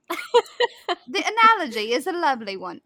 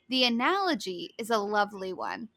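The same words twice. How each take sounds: First: It is said in a put-on British accent. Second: It is read in the speaker's normal accent.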